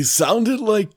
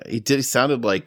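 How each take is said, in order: First: Put-on high, strained old man voice. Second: Said in the usual way. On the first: Shown as a demonstration. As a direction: try out a creaky old man. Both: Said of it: "He sounded like an old man".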